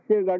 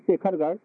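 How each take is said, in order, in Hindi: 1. नाम बीच की kh ध्वनि के बिना बोला जाता है। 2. नाम बीच की kh ध्वनि के साथ बोला जाता है। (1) "ख उसमें से निकल गया है, ब्रजवासी लोग जल्दी से उच्चारण कर लेते हैं" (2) "शेरगढ़ नहीं शेखरगढ़"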